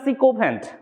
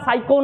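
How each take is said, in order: First: The first syllable sounds like 'sick'. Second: The first syllable sounds like 'sigh'. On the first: The speaker calls it right. "উচ্চারণটা সিকোফ্যান্ট" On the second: The speaker calls it wrong. "উচ্চারণটা সাইকো নয়"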